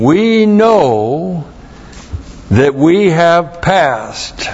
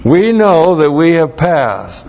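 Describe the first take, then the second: First: "We know" lifted high, then "that we have passed" drawn out slowly after a pause; measured solemn reading of "We know that we have passed"; slow deliberate scripture reading. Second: "We know that we have passed" read at speaking pace, with a high lift on "know"; crisp re-read of "We know that we have passed"; firm quoted verse. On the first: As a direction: read the verse word by word, leaning on "We". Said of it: "Verse fourteen". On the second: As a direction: restate the verse cleanly, stressing "know". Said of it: "I'll know it when you pass too".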